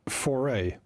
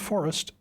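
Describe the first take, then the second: First: It is pronounced the French way, like foray. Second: It is pronounced like the English word forest. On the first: The speaker calls it right. "it's just the French or Dutch pronunciation" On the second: The speaker calls it wrong. "it is not forest"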